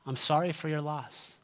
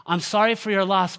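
First: Soft, simple condolence; understated, sincere sympathy. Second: Louder, uneasy would-be comfort; over-eager acted condolence; uncomfortable condolence. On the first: Shown as a demonstration. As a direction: say it quietly and leave it there. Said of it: "I wanna give you two magical words". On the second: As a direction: imitate a well-meaning consoler pushing on. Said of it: "because we're so uncomfortable with this, we will say things like".

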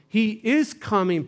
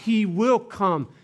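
First: "is" punched high and loud; stress on IS. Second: "will" picked out high and loud; stress on WILL. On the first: Preacher insisting on present tense, punching "is". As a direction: hit "is" hard to insist on now. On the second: Preacher correcting future tense, punching "will". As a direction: lean on "will" as the rejected tense. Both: Shown as a demonstration. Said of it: "present tense".

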